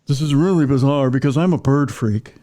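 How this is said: It is read in a pretentious voice.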